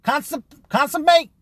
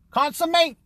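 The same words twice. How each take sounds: First: Consummate tried out high and unsure; groping for the word. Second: Consummate said high, trailing and questioning; unsure retry. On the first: Searching aloud for the word consummate. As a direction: sound out consum- then consummate. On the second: Still unsure of the word Consummate. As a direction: test the word Consummate again. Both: Real, not acted. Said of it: "what's the word".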